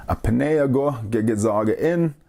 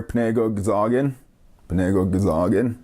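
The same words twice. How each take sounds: First: Full form, every syllable, "A panegwa gigazag in"; full careful form. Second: Clipped local "Panego gazagin", syllables run together; local pronunciation. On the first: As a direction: spell out "panegwa gigazag in" slowly and fully. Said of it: "or as people pronounce things around here". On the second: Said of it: "as people pronounce things around here". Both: Shown as a demonstration.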